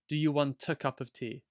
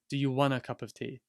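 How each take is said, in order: First: A clear T links into the following vowel. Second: 'Want a' is reduced to 'wanna'. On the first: "So the T becomes part of the A" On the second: "It's also possible to say wanna"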